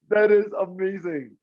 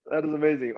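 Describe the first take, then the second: First: High, slow, drawn-out amazement; amazed. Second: Said in the usual way. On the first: Real, not acted. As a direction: let the wonder stretch out.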